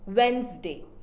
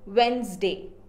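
Both takes have the same delivery.

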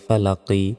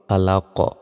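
First: The word ends with an i vowel. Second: The word ends on the q sound. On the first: The reading continues without stopping. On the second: The reader stops at this word.

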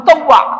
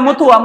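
First: The second syllable is an open 'taw' sound. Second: The second syllable is a short 'tu' sound. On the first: The speaker calls it right. "উচ্চারণটা হচ্ছে মুতাওয়া" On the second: The speaker calls it wrong. "মুতুয়া শব্দটা ভুল বলে আর কি"

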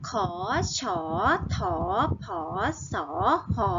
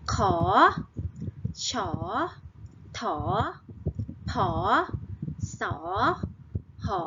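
First: The syllables are read at a faster pace. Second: The syllables are read at a slower pace.

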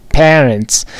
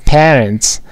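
Both takes have the same delivery.

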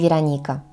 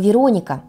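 First: The stress is on the third syllable. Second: The stress is on the second syllable. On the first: The speaker calls it wrong. "а не Вероника" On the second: The speaker calls it right. "в котором не росла бы Вероника"

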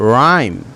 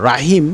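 First: The word is said with no h sound. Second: The word is said with an h sound. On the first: The speaker calls it right. "এখানে বলতে হবে রাইম" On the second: The speaker calls it wrong. "Not রাহিম"

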